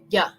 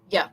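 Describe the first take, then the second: First: It begins with a y sound. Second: The same.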